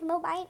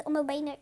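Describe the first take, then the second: First: "banner" attempted as "BAI-ner"; unsure pronunciation. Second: "banner" said as "BEH-ner"; unsure pronunciation. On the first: Vlogger second-guessing the word for her viewers, "banner" as "BAI-ner". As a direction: start "banner" with "bai", like "bye". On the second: Vlogger trying the word for her viewers, "banner" as "BEH-ner". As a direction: say "banner" with an open "beh" first syllable. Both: Real, not acted. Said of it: "Não, gente, eu não sei".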